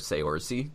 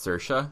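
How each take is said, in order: First: The name is pronounced as guessed from spelling. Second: The name has its standard Irish pronunciation. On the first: The speaker calls it wrong. "for the longest time, was calling her Saoirse because I had no idea how to pronounce it" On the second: The speaker calls it right. "I just realized that her name was Saoirse. Is that right?"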